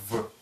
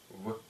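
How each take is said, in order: First: The sound is made with lower lip and teeth. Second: The sound is made with both lips together. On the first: The speaker calls it wrong. "Это не русская буква «В»" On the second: The speaker calls it right. "а щелевая, губная, звонкая буква «В»"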